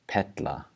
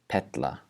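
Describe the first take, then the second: No difference in how they are said.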